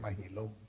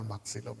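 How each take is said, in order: First: The middle consonant is pronounced as 'h'. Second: The middle consonant is pronounced as 'ks'. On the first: The speaker calls it right. "It's actually Mahilom because the Mexican Spanish X is also congruent to the English H" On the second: The speaker calls it wrong. "People tend to mispronounce the name of General Maxilom"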